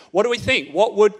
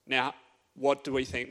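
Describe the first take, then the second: First: Put-on calling out to the boys to answer; louder call to the room. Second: Said in the usual way. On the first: Shown as a demonstration. Youth leader calls out to the boys for an answer, louder. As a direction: push it out, wanting a reply. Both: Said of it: "this is an actual engagement".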